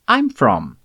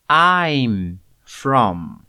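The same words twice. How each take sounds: First: It is said at a faster pace. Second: It is said at a slower pace.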